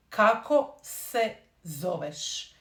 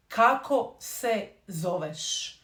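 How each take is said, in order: Both takes have the same delivery.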